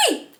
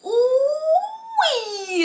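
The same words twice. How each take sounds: First: "Wee" as one short syllable, the proper French oui; just "Wee", a single clean syllable; plain French yes: "Wee" said once; correct oui. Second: "Ooh, wee" said as two syllables, high and loud, ooh then wee; mispronounced French yes: "Ooh, wee" split in two; wrong oui. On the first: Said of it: "but I say". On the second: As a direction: blurt "Ooh, wee" instead of a plain oui, higher and louder. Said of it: "not ooh, wee". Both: Shown as a demonstration.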